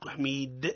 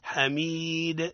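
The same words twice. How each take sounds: First: The vowel is said less open, away from 'a'. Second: The vowel is said more open, close to 'a'. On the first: The speaker calls it wrong. "لا مش حميد" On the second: The speaker calls it right. "أقرب ما تكون إلى الفتح"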